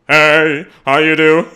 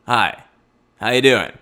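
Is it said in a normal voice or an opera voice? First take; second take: opera voice; normal voice. First: It is said in a put-on opera voice. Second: It is said in a normal speaking voice.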